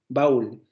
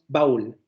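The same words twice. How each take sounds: No difference in how they are said.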